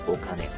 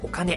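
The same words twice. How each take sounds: First: The word is said with a disgusted, dirty tone. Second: The word is said in a bright, shining tone. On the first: Money is seen as something dirty. "汚いイメージを持ったら" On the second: Money is seen as something beautiful and useful. "輝かしく"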